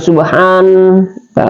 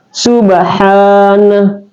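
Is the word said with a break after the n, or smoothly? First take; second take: break; smoothly. First: The word breaks apart with a separate nah. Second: The n flows straight into the final syllable. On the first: The speaker calls it wrong. "tidak boleh" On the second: The speaker calls it right. "langsung masuk"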